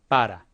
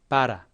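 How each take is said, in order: No difference in how they are said.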